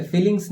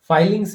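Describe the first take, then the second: First: फीलिंग्स with "ee" in place of "eye"; mistaken pronunciation. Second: फाइलिंग्स with a long "eye" in the first syllable, higher and louder; corrected pronunciation. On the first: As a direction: say फीलिंग्स as FEE-lings, the common slip. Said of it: "कुछ लोग फीलिंग्स बोल देते हैं". (फीलिंग्स में पहला स्वर "ई", गलत उच्चारण) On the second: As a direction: say फाइलिंग्स firmly as FYE-lings. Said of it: "फीलिंग्स नहीं". (फाइलिंग्स में पहला स्वर "आइ", ज़ोर देकर) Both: Shown as a demonstration.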